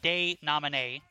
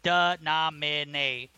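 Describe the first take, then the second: First: The first syllable is a long 'day' sound. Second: The first syllable is a short 'da' sound. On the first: The speaker calls it wrong. "not day-nomine" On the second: The speaker calls it right. "Denomine is pronounced da-na-mine"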